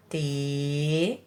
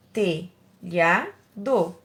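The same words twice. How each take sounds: First: "Telhado" very slowly, lower and softer; drawn-out syllables. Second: "Telhado" in three separate beats, te, lha, do; syllable by syllable. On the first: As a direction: stretch te and lha with long pauses, then do. ("Telhado" bem devagar, sílaba por sílaba) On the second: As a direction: break "Telhado" at each syllable. ("Telhado" separado em três sílabas) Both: Shown as a demonstration. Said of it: "três sílabas".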